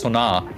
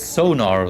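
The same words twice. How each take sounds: First: The A vowel carries the weight, not the O. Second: The O vowel carries the weight, not the A. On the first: "In German, it's sonar. ... you pronounce the A instead of the O" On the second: "So in English, it's sonar, though"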